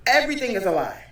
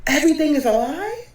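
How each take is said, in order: First: Said in the usual way. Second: Stunned question. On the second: Shown as a demonstration.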